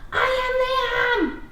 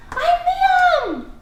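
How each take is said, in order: First: High, loud and slow excited shout; excited yell. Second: Very high, loud excited cry; excited shout. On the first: Teacher modelling an exclamation point, excited yell. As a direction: shout your name like big news. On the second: Teacher modelling exclamation again, excited shout. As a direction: burst out with it. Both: Shown as a demonstration. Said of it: "say it excited or yelling".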